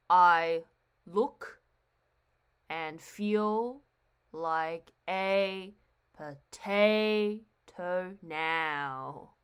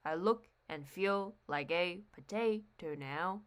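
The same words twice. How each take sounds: First: "I look and feel like a potato now" slowly, syllable by syllable, stressing every second one; alternating iambic stress. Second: "I look and feel like a potato now" in one soft, slow run with alternating stress; iambic line, joined up. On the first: Teacher demonstrating iambic pentameter, "I look and feel like a potato now" broken into stressed beats. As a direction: spell out the beat softly in "I look and feel like a potato now", pausing between feet.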